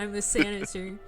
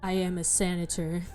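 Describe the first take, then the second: First: The voice is higher and lighter. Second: The voice is low and deep. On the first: The character has taken his mask off. "but when he takes it off, he's like" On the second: The character is wearing his mask. "his voice being like deep when he's wearing the mask"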